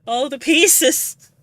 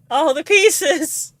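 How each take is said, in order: First: Tearful cry, slow and drawn out; overwhelmed, voice full of tears. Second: Higher tearful wail, slow; breaking into tears on pieces; crying out. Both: Real, not acted. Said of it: "I'm crying".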